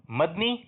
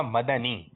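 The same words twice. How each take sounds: First: مدنی as two beats, mad-ni, no vowel after the d; pronunciation option. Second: مدنی as three beats, ma-da-nee, with an a after the d; pronunciation option. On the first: Host offers contestant a first pronunciation choice, mad-ni. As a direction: say مدنی clipped to "MAD-nee". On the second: Host offers contestant the other pronunciation, ma-da-ni. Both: Shown as a demonstration. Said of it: "درست تلفظ بتانا ہے".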